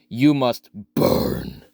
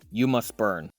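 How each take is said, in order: First: It is said in a scary voice. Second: It is said in a plain voice.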